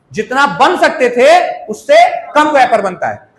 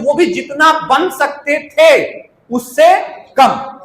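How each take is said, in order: First: Said in the usual way. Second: Drawn out so the class notes उससे कम; teacher slowing down to drive the point home; slow emphasis. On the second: Shown as a demonstration. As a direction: spell it out slowly, stress उससे कम. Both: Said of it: "repeated for emphasis".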